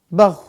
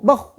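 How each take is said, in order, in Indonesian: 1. Bunyi konsonan akhirnya mengalir terus dengan napas. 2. Bunyi konsonan akhirnya terputus mendadak. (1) "harusnya bau" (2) "jangan sampai syiddah ... jadi kayak nggak enak"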